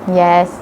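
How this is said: The pitch stays level throughout the word. "in a stable manner, which is called as level note"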